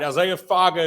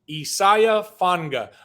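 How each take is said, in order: First: The surname is said without an n sound. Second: The surname is said with an n sound. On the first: The speaker calls it wrong. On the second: The speaker calls it right. "they put an N in the pronunciation"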